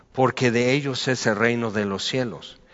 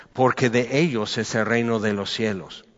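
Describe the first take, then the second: No difference in how they are said.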